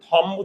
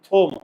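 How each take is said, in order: First: The vowel is an open 'aw' sound. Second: The vowel is a rounded 'oh' sound. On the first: The speaker calls it wrong. "আমরা কি এটাকে থম উচ্চারণ করি?" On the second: The speaker calls it right. "আমরা উচ্চারণ করি কি থোম।"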